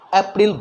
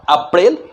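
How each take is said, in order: First: It is said with an English-style pronunciation. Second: It is said with a Hindi-style pronunciation. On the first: The speaker calls it right. "English में आप अच्छा pronunciation" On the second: The speaker calls it wrong. "नॉट"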